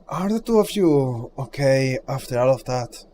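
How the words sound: It is said in a near-natural voice.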